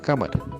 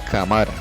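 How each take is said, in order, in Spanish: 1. La sílaba tónica es la antepenúltima. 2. La sílaba tónica es la penúltima. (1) "la antepenúltima es ka" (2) "Al no colocarle la tilde sonaría"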